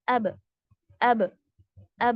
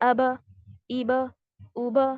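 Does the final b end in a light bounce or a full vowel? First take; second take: bounce; vowel. First: The final b ends in a light bounce. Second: The final b is followed by a full vowel. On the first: The speaker calls it right. "Bounce हुआ यानी कि कलकला हुआ" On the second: The speaker calls it wrong. "इस तरीके से नहीं होना चाहिए"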